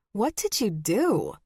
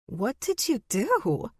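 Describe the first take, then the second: First: Less raised, falling question; firm, suspicious question; stern demand. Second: High, slow, amused question; delighted, teasing curiosity; laughing question. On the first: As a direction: demand an answer from a sister. Sister demands an answer. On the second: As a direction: ask it as if amused, with little actual laughter. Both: A narrator's reading.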